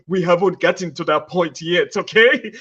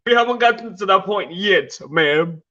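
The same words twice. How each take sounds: First: Put-on light African accent, playful; lightly put-on African accent. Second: Said in the usual way. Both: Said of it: "You want me to use my African accent?".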